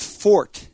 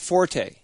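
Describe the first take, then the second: First: The word ends on the t sound. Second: The word ends with an extra vowel sound. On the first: The speaker calls it right. "the actual correct pronunciation of that word is fort" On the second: The speaker calls it wrong. "not forte"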